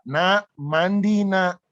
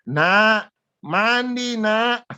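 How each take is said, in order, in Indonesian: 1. Suaranya berada di nada paling rendah. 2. Nada suaranya jauh lebih tinggi. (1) "biasanya saya teriak" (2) "Saya teriak tambah satu oktav lebih tinggi"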